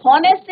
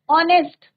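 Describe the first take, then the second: First: हॉनेस्ट with a breathy h sounded at the start; wrong pronunciation. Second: ऑनेस्ट with a silent h, starting on the vowel; correct pronunciation. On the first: Teacher shows the class the mistake, a sounded h. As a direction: voice the h at the front of हॉनेस्ट. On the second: Teacher shows the class the right way, h silent. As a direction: say ऑनेस्ट cleanly with no h sound. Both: Shown as a demonstration. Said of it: "हॉनेस्ट नहीं बोलते".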